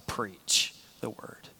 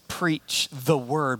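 First: The stress is on the word "preach". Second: The stress is on the word "word". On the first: The message must be actively proclaimed. "Same phrase, just a different emphasis" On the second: The message itself is what matters. "Same phrase, just a different emphasis"

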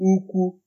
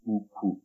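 First: Both syllables are on a high pitch. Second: Both syllables are on a low pitch. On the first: It means big. "That's high, high" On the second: It means bunch or bundle. "It sounds low, low"

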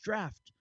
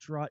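First: The vowel rhymes with 'daft', ending in 'ft'. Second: The vowel rhymes with 'saw', with no ending consonant. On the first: The speaker calls it right. "It's just draft" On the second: The speaker calls it wrong. "don't say draw"

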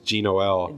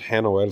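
First: The name starts with a j-like sound. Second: The name starts with an h-like sound. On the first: "but in English" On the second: "Or in Spanish"

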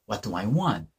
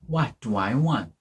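First: It is said faster, more run together. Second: It is said at a normal, careful pace.

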